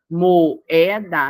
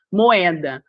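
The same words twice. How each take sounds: First: "moeda" split into mo, e, da; syllable by syllable. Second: Said in the usual way. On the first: Shown as a demonstration. Teacher shows students the hiatus, "moeda" syllable by syllable. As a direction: separate "moeda" at every syllable, keeping o and e apart. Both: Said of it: "A separação silábica".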